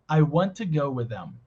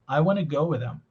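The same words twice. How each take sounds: First: The words are only lightly reduced. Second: The words are more strongly reduced.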